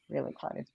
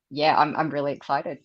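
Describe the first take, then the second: First: Hushed, breathy echo of excitement; whispered. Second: Said in the usual way. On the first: Real, not acted. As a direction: whisper it again softly. Repeats excited, then whispers it.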